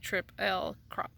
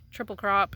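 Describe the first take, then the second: First: The first word is split into separate sounded parts. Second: The first word is said as one smooth word. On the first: "if you're gonna sound out each word and letter" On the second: "I just like saying triple triple crop. It's easier to say"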